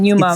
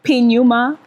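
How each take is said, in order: First: The word begins directly with an N sound. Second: The word begins with a spoken P sound. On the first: The speaker calls it right. "P silent" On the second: The speaker calls it wrong. "everyone's like P Numa"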